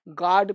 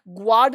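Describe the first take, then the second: First: The g is followed directly by the vowel. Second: The g is followed by a w sound. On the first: The speaker calls it right. "गार्ड पढ़ेंगे" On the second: The speaker calls it wrong. "ग्वाड नहीं पढ़ेंगे"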